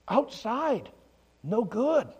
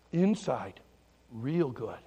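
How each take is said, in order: First: "Outside" and "good" pitched high, set apart; stress on OUTSIDE. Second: Gentle contrast. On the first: Pastor teaching kids the lesson, "Outside" pitched up. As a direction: announce "Outside", pause, then "no good" up high. Contrasts outside with inside for children. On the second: Pastor teaching kids the lesson, low and gentle. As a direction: let it settle down low and tender. Contrasts inside with outside for children. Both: Acted.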